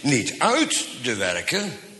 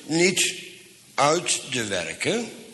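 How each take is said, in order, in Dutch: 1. Het woord uit krijgt de klemtoon. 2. Het woord uit is niet beklemtoond. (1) "maar nou met de klemtoon erop" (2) "Maar eigenlijk moet ik het anders lezen"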